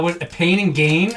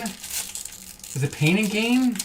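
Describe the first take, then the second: First: Said in the usual way. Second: Drawn out, softer, pondering; slow musing. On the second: Real, not acted. Streamer to chat, slowly pondering the title. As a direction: stretch it out as you search your memory. Trying to recall the movie.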